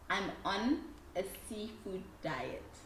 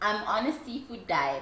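First: It is said slowly. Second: It is said at normal speed.

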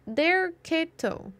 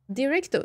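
First: The name is said as der-KE-to. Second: The name is said as di-REC-to. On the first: The speaker calls it right. "That one" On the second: The speaker calls it wrong. "I said it wrong the whole time"

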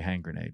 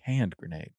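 First: The first word ends with an ng sound. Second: The first word ends with a d sound. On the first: The speaker calls it wrong. "You don't say hang grenade" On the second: The speaker calls it right. "You say hand grenade"

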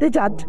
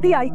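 First: The word uses j sounds throughout. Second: The word uses y sounds instead of j. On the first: This is the form the speaker's group does not use. "ما يقولون دجاج" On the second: This is the local village dialect form. "إحنا بالمرقاب نقول دياي"

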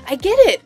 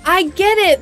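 First: The tone sounds warm and encouraging. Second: The tone sounds cool and dismissive. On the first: The speaker sincerely wants to help and lift others up. The speaker calls it right. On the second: The speaker does not really want to help. The speaker calls it wrong.

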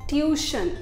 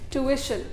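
First: No 'ee' sound follows the 'u'. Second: An 'ee' sound follows the 'u'. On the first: The speaker calls it wrong. "हम लोग गलत बोलते हैं" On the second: The speaker calls it right. "ये इसका सही pronunciation है"

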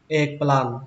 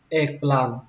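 No difference in how they are said.

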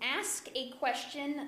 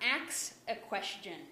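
First: The verb is pronounced with s before k. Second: The verb is pronounced with k before s. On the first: The speaker calls it right. "You ask a question" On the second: The speaker calls it wrong. "not ax a question"

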